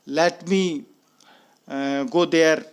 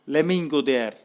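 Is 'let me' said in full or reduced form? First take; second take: full; reduced. First: The words let me are said fully and separately. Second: The words let me are blended into lemme.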